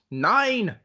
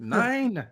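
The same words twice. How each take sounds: First: High shout. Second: High, shifted voice yelling "Nine!"; put-on shout. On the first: Acted. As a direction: shout "Nine!" high and loud. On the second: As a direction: yell it in a cartoonish high voice.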